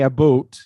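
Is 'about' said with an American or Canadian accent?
Canadian. It is said with a Canadian accent. "so Canadian English, they say about"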